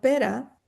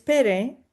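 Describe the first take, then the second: First: The name ends with an 'a' vowel sound. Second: The name ends with an 'e' vowel sound. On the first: This is how the name is said in Catalan. "está diciendo pera como la fruta" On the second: This is how the author meant the name. "el nombre es pere"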